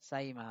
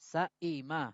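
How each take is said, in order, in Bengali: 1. মাঝের গ্লটাল স্টপ নরম করে পড়া হয়, প্রায় কিছুই না থাকার মতো। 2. মাঝের গ্লটাল স্টপ পূর্ণভাবে ও দৃঢ়ভাবে উচ্চারিত হয়। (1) "কিন্তু আপনি এর মাঝামাঝি পড়তে পারবেন" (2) "এটা হচ্ছে মূল উচ্চারণ"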